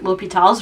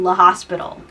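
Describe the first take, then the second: First: The name is said without an s sound. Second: The name is said like the word hospital.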